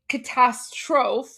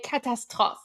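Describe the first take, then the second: First: Catastrophe as "kuh-TASS-trofe", drawn out; English-style mispronunciation. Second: Catastrophe with a French throaty r, ending "-trof"; French pronunciation. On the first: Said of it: "he wouldn't say". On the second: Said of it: "say it with a French accent". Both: Shown as a demonstration.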